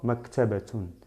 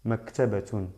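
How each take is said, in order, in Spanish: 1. La palabra termina con el sonido final -tun. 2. La palabra termina con el sonido final -tun.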